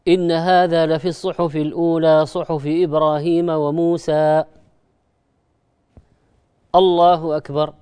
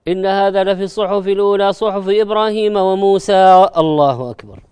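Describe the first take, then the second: First: A short pause comes before the final words. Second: The final words follow with no pause. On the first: The recitation is kept apart from the bowing. The speaker calls it right. "السنة" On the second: The recitation runs straight into the bowing. The speaker calls it wrong. "طبعا نحن أحيانا نخل بهذه السنة"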